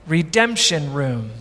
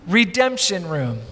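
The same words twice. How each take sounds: First: "Redemption Room" read slowly with a falling tune; slow, weighty reading. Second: "Redemption Room" echoed quietly with a fall; softer echo. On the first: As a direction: let "Redemption" land low and slow. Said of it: "it read". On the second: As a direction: repeat "Redemption Room" softly and slowly. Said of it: "repeated for effect". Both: Shown as a demonstration.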